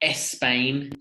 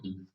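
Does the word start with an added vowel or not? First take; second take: added vowel; no vowel. First: An extra vowel comes before the S. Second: The word starts directly with the S. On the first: The speaker calls it wrong. "Don't add the extra E at the beginning of it. So it's not Spain" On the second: The speaker calls it right. "It's just"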